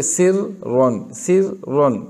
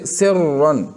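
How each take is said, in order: First: सिर्रन broken into thin sir, then heavy ron; split R, wrong reading. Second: सिर्रन as one word with a heavy doubled R; correct joined R. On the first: Teacher shows the wrong reading, सिर्रन split in two. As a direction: pause inside सिर्रन, two different Rs. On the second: Teacher gives students the example, सिर्रन joined and heavy. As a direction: hold straight through the double R of सिर्रन. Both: Shown as a demonstration. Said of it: "तो ये गलत हो जाएगा ना".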